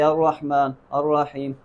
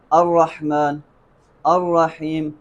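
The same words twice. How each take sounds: First: "الرحمن، الرحیم" with the opening a weak and slurred; "الرحمن، الرحیم" run on, first vowel barely marked; unclear hamza. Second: "الرحمن، الرحیم" each with a firm glottal onset; careful, separated "الرحمن، الرحیم"; clear hamza. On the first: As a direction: show the mistake, running into "الرحمن" and "الرحیم" without an onset. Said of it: "سننے میں حمزہ صحیح واضح سنائی نہیں دے رہا". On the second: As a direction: sound the first a of "الرحمن" and "الرحیم" distinctly. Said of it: "ہم نے خوب واضح کرنا ہے". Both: Shown as a demonstration.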